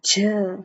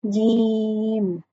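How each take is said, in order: First: The j sound is harsh and hard. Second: The j sound is soft and simple. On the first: The speaker calls it wrong. "Don't make it too harsh like j" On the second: The speaker calls it right. "So it's simple jeem"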